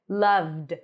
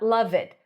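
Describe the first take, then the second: First: The ending is a bare D, one syllable. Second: The ending is said as an extra syllable. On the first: The speaker calls it right. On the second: The speaker calls it wrong.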